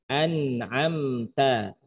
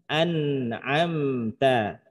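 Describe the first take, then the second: The two takes are said the same way.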